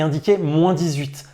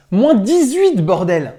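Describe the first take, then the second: First: Said in the usual way. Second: Excited outburst. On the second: Real, not acted. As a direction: blurt it out, amazed at the cold. Exclaiming at the cold.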